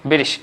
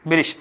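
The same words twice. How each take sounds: The two takes are said the same way.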